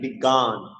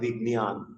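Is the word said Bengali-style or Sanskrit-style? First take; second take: Bengali-style; Sanskrit-style. First: The cluster has the everyday Bengali pronunciation. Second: The cluster has the Sanskrit recitation pronunciation. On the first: "বাংলা শব্দ গঠন করি উক্ত যুক্তাক্ষর দিয়ে তাহলে" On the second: "সংস্কৃত শ্লোক উচ্চারণে এটাকে বলতে হবে"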